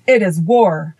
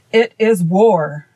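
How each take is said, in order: First: Firm, mildly heated declaration; fiery declaration. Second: Slow, drawn-out hostile retort; savage retort. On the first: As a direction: declare it with restrained fire. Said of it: "declared Ak with flashing eyes". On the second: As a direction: throw it back slowly, with understated savagery. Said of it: "returned the king savagely". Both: A narrator's reading.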